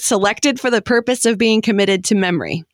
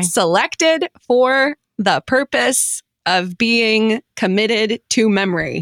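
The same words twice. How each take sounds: First: The phrase is read quickly. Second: The phrase is read slowly.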